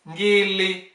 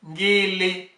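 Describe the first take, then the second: Both takes have the same delivery.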